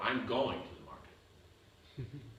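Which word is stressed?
going. The word going carries the main stress. It denies the claim of not going. "You said I'm not going"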